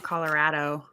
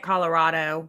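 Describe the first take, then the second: First: Colorado with a short A as in "cat". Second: Colorado with an open O-like middle vowel. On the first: Showing the way she rejects, Colorado with an A. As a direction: say Colorado with a flat A in the middle. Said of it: "with the O, not Colorado". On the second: Telling co-hosts her own way, Colorado with the O. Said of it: "with the O". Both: Shown as a demonstration.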